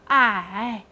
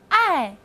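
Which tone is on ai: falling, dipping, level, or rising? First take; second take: dipping; falling. First: The pitch dips low, then rises. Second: The pitch falls sharply from high to low. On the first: "三声I" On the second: "四声，爱"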